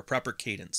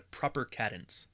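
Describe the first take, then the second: First: Said in the usual way. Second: "cadence" with a short a, as in cat; mispronounced "cadence". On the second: Real, not acted. Host answering a chat remark on his speed, "cadence" said KAD-ence. Says the word, then corrects it.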